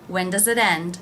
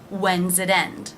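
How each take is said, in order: First: 'Does' is said as a full word. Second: 'Does' is shortened to a z sound.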